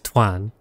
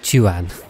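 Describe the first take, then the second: First: The name begins with a tw sound. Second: The name begins with a ch sound. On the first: "an American might read that as twan" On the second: "as a British, I'd go with chuan"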